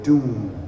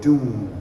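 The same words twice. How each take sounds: First: The pitch stays level and long. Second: The pitch stays level and long.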